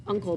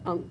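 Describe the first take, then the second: First: Said in the usual way. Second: "Unc" said as one short syllable, the -le dropped; clipped Unc. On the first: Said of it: "is not spelled uncle". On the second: Shown as a demonstration. Reader showing kids how Unc' is said, short and clipped. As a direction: say "Unc", cutting off the end of uncle. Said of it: "that's how people say it".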